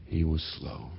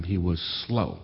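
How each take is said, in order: First: Soft echo. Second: Said in the usual way. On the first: Shown as a demonstration. Narrator echoing the children's label, softly and ruefully. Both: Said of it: "as we said at the time".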